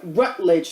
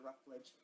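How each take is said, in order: First: The name is said with a t sound. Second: The name is said with an f sound. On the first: The speaker calls it right. "I'm sorry, Rutledge" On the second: The speaker calls it wrong. "not Ruffledge"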